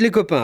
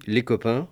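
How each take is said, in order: First: Les copains said high and falling as a title; les copains announced like a chapter heading, falling at the end. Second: Said in the usual way. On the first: Shown as a demonstration. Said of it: "Ensuite, les copains". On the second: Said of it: "list of four categories".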